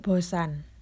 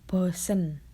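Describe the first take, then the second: First: The last syllable has the vowel a. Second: The last syllable has the vowel e. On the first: It is the standard form used in formal writing. "kosakata baku yang keenam yaitu bosan" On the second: It is the informal everyday form. "kosakata tidak bakunya itu bosen"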